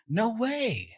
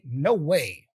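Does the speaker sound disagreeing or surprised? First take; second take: surprised; disagreeing. First: It sounds amazed and surprised. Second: It sounds firm and disagreeing. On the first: The speaker can hardly believe the news. "I'm surprised" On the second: The speaker rejects the idea. "I'm saying no, I disagree"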